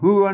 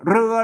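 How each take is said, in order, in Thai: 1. คำนี้ขึ้นต้นด้วยเสียง h 2. คำนี้ขึ้นต้นด้วยเสียง r (1) "เวลาอ่านอ่านภาษาละนาต้องอ่านว่า" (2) "อ่านภาษาไทยอ่านว่า"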